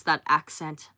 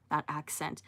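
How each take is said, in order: First: Said in the usual way. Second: That accent repeated much softer to herself; soft echo. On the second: Real, not acted. Streamer echoing chat about an accent, softly. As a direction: let that accent fade into a savoring murmur. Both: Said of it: "that accent too".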